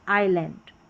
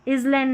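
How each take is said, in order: First: No s sound is heard in the word. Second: An s sound is heard in the word. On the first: The speaker calls it right. "यहाँ पर एस नहीं पढ़ा जा रहा" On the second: The speaker calls it wrong. "इजलैंड नहीं"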